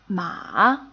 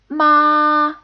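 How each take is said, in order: First: The pitch falls and then rises. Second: The pitch stays high and level. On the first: "a falling and then rising tone" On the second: "a high-pitched, flat tone"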